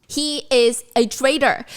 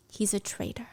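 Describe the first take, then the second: First: Slow, weighty, stress on traitor; slow emphatic. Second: A breathless hushed whisper. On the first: Narrating Violet's realisation to viewers, slow and emphatic. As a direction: land each word heavily, He is a traitor. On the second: Narrating Violet's realisation to viewers, whispered. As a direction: breathe it like a terrible secret. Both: A narrator's reading.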